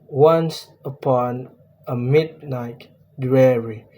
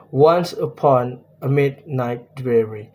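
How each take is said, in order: First: Once upon a midnight dreary with ONCE and MID leaned on, falling at the end; trochaic stress. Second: Metered reading, stressed once and mid; trochaic stress. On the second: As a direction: stress ONCE and MID in once upon a midnight dreary. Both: Shown as a demonstration. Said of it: "Mid is stressed and night is unstressed".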